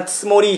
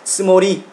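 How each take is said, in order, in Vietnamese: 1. Âm tiết đầu được phát âm rất nhẹ. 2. Âm tiết đầu được phát âm nặng hơn một chút. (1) "chúng ta đọc rất là nhẹ thôi" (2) "Bạn nào mà đọc nặng hơn một chút"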